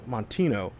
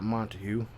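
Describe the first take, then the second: First: The name ends with a '-tino' sound. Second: The name ends with a '-tague' sound. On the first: The speaker calls it right. "that's how you say his name" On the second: The speaker calls it wrong. "I say not Montague"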